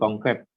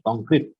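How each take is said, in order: First: It is pronounced the Indonesian way. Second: It is pronounced the English way. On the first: The speaker calls it right. "ketika di Indonesia jadi" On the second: The speaker calls it wrong. "lidah pengucapan asing bahasa Inggris khususnya"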